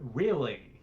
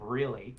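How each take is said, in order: First: The word begins with a W sound. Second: The word begins with an R sound. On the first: "when you say a W sound instead of an R sound" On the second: "instead of really"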